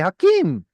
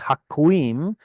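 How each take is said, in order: First: No w sound follows the k. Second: A w sound follows the k. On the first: This is the simplified form with the vav lost. "much easier to say Hakim" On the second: This is the older form with the vav sounded. "it's harder to say Haquim"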